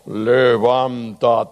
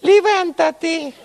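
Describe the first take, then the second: First: Slow, solemn low "Levántate"; deep God voice. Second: "Levántate" much higher and a bit louder; high squeaky voice. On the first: Pastor demonstrates the low voice of God, slow. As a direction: draw out "Levántate" like a divine summons. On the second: Pastor shows a voice that can't be God's, high. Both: Shown as a demonstration. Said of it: "Y pongo otra voz".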